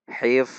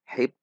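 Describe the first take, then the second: First: The word ends with a flowing f sound. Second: The word ends with a stopped p sound. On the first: The speaker calls it right. "Namun dibaca hif. Tidak tertahan" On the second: The speaker calls it wrong. "Sehingga tidak dibaca hip"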